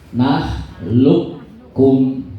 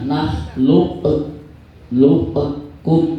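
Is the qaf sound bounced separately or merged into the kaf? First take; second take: merged; bounced. First: The qaf merges straight into the kaf. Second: The qaf is bounced separately before the kaf. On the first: The speaker calls it right. "Qaf dimasukkan ke kaf" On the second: The speaker calls it wrong. "Jangan nakhluq luqkum, enggak usah. Jangan dikol kolahkan"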